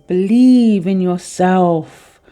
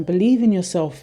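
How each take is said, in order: First: "Believe" drawn out slowly and much louder; emphatic encouragement. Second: Said in the usual way. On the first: Real, not acted. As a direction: stretch "Believe in yourself" slow and strong, like a rallying call. Reading card message emphatically.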